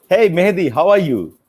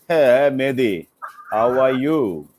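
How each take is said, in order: First: It is said in a warm, friendly tone. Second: It is said in a hostile, threatening tone. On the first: A sincere, kind greeting. The speaker calls it right. "very good, right?" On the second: The greeting carries a threat. The speaker calls it wrong. "I'm giving you thread"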